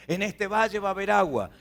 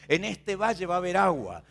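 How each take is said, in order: Both takes have the same delivery.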